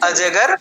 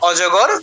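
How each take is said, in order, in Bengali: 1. প্রথম স্বরধ্বনিটি একটি খোলা 'a' ধ্বনি। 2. প্রথম স্বরধ্বনিটি একটি গোলাকার 'o' ধ্বনি। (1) "হিন্দিতে বলবে অজগর" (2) "আমরা বাংলায় বলি অজগর"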